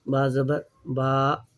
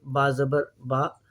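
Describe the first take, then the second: First: बा ज़बर बा slowed, final बा stretched to a long aa; long khada zabar. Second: बा ज़बर बा with a short clipped final बा; short zabar. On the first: Teacher to students, contrasting the long vowel. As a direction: pull the last बा in बा ज़बर बा out long. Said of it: "जब खड़ा ज़बर आ जाएगा". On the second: Teacher to students, first the ordinary zabar. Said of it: "ज़बर है ये, इसको पढ़ते हैं". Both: Shown as a demonstration.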